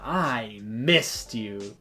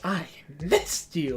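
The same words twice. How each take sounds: First: It is said in a calm, unexcited way. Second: It is said in an excited way.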